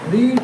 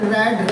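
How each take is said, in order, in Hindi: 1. स्वर लंबा है, जैसे 'reed' में। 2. स्वर छोटा है, जैसे 'red' में। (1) "रीड मीन्स पढ़ना होता है" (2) "इसको रेड बोलेंगे"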